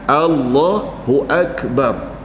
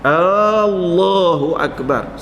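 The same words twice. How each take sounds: First: The opening vowel of Allahu is kept short. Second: The opening vowel of Allahu is drawn out long. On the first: God is the Greatest. The speaker calls it right. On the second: It asks whether God is Allah the Greatest. The speaker calls it wrong. "kita panjangkan hamzah pada Allah itu"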